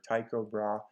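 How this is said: The name is pronounced the English way. "English speakers from different countries ... pronounce his name in different ways"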